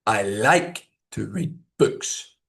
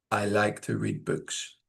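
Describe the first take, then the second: First: Slow, with LIKE rising and BOOKS stressed; natural keyword stress. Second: Slow, soft, low and toneless; flat monotone. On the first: Teacher showing natural intonation, stress on "like" and "books". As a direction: lift "like" and "books", keep "to read" light. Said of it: "natural stress on keywords". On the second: Teacher showing unconvincing intonation, flat monotone. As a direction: drone it as if you don't care. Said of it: "Flat, monotone speech". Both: Shown as a demonstration.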